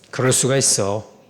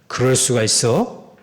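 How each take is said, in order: First: The pitch falls at the end of the phrase. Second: The pitch rises at the end of the phrase. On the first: The speaker accepts that such things can happen. The speaker calls it right. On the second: The speaker is accusing someone of an unthinkable wrong. The speaker calls it wrong.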